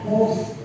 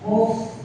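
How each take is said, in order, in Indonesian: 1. Bunyi f membiarkan nafas mengalir keluar. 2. Bunyi f membiarkan nafas mengalir keluar.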